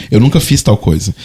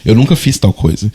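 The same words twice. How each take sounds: The two takes are said the same way.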